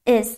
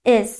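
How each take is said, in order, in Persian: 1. مصوت یک صدای i کوتاه است. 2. مصوت یک صدای i کوتاه است.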